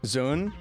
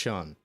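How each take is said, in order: First: The word begins with a buzzing z sound. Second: The word begins with a light, airy sh sound. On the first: The speaker calls it wrong. "Is it more like a Z?" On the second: The speaker calls it right. "Is a light, airy S H sound"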